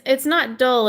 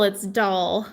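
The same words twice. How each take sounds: First: "dull" with a short uh vowel; "dull" rhyming with gull; mispronounced name. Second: "doll" with an open ah vowel; "doll" like the toy, open vowel; corrected pronunciation. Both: Shown as a demonstration.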